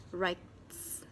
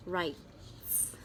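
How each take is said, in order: Both takes have the same delivery.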